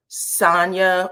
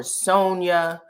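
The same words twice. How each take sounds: First: Sonia said as SAHN-ya; first pronunciation of Sonia. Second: Sonia said as SOHN-ya; alternative pronunciation of Sonia. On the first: Host unsure of a woman's name, Sonia as SAHN-ya. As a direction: open "ah" in the first syllable of Sonia. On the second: Host offering another version of a name, Sonia as SOHN-ya. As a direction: round "oh" in the first syllable of Sonia. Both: Shown as a demonstration. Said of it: "Sonia or Sonia".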